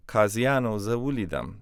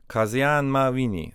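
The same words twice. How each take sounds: First: "Kaziano zawulidam" with Kaziano ending in "oh"; o added to subject. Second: "Kazian mawini" with Kazian ending on n; no o on "Kazian" before "mawini"; uninflected subject form. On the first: Teacher showing a past tense sentence, o-ended "Kaziano zawulidam". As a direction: add an o to "Kaziano" before "zawulidam". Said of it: "we add the o on the end". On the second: Teacher showing a present tense sentence, uninflected "Kazian mawini". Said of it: "This is present tense". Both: Shown as a demonstration.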